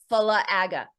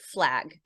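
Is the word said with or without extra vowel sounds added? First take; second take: with; without. First: Extra vowel sounds are added after the consonants. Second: The word is said without extra vowel sounds. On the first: "if we put schwas on it" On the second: "imagine the word flag"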